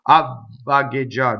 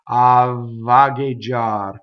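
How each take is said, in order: First: The voicing stops briefly during the double V. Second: The voicing continues unbroken through the double V. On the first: The speaker calls it wrong. "a lot of people doing double V would go" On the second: The speaker calls it right. "No, you don't stop"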